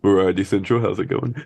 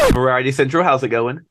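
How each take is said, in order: First: It is said in a put-on podcast voice. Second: It is said in his ordinary plain voice.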